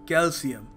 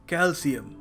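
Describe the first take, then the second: No difference in how they are said.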